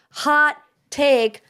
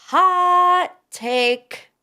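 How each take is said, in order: First: Said in the usual way. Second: High, punchy hot take call; mock announcer. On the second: Shown as a demonstration. Host hyping her own opinion, mock announcer call. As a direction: sing it out like a game show host.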